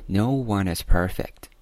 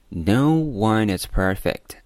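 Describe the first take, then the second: First: "no" and "one" with drawn-out vowels; lengthened stressed vowels. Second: Slow phrase with "no" given more volume; louder stressed word. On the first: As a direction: stretch the vowel in "no", slowly. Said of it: "元音的部分读得更长一些". (拉长 no 的元音) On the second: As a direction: punch "no" by volume. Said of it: "读得大声". (加大音量重读 no) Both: Shown as a demonstration.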